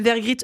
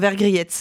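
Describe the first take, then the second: First: The name ends in a short 'ee' sound. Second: The name ends in an 'ette' sound. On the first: The speaker calls it right. "mon nom de famille se prononce Vergrit" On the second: The speaker calls it wrong. "Pardon, Vergriette. Mais non, vous l'aviez du premier coup"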